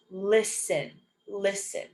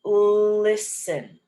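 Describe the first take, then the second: First: "listen" with just an S sound, no T; silent T. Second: "listen" with a long held L, louder; drawn-out pronunciation. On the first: Teacher showing ST said as S, careful silent-T "listen". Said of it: "we pronounce it as just an S". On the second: Teacher modelling a word for learners, slow careful "listen". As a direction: stretch the first sound of "listen". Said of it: "Like in this word". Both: Shown as a demonstration.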